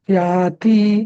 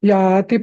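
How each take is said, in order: First: The final vowel is drawn out long. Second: The final vowel is kept short. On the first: The speaker calls it wrong. "असं तू याती ... तो ऱ्हस्व म्हटला जात नाही, दीर्घ म्हटला जातो" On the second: The speaker calls it right. "जेव्हा अक्षर ह्रस्व असतं ना तेव्हा पुढच्या याच्यावर एकदम उडी मारायची"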